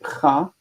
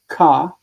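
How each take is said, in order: First: It starts with a raspy ch sound. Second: It starts with a hard k sound. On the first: The speaker calls it right. "we say cha" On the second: The speaker calls it wrong. "we don't say ka"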